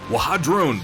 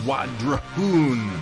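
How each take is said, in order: First: An H sound is heard in the middle. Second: No H sound is heard in the middle. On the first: The speaker calls it wrong. "I look at it and I think" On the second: The speaker calls it right. "there's no H, it's just"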